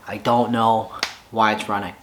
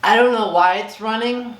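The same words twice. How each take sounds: First: Low, deflated admission of defeat. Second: Much higher, delighted bafflement; baffled. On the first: Frustrated owner admits defeat over his motorcycle, deflated. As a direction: sigh out "I don't know why it's running" like you've given up. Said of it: "I was absolutely defeated". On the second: Owner grins at his roaring motorcycle, giddy and baffled. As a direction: say "I don't know why it's running" with giddy disbelief. Bike running, baffled and excited. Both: Real, not acted.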